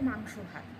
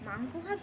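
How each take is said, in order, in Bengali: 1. এটি সাধারণ, স্বাভাবিক প্রাপ্তবয়স্কের গলায় বলা হয়েছে। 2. এটি আদুরে, শিশুসুলভ গলায় বলা হয়েছে। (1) "একটা দু বছরের বাচ্চা, সেও বলতে পারে মাংস ভাতকে মাংস ভাত" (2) "তুই মাংস ভাতকে মাংস ভাত বলছিস"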